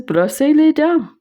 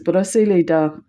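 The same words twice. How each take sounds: First: Much higher, louder French command; repeating it more insistently in French. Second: Plain French words out of the blue; casual French command; French phrase. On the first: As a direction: say it again, firmer and higher. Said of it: "She says". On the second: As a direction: say it matter-of-fact in French. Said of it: "she says". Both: Retold or imitated.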